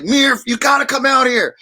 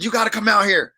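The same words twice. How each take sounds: First: An imitated shout, higher and louder; calling out. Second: Said in the usual way. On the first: A friend shouting the invite, imitated shout. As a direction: call it out like an eager friend.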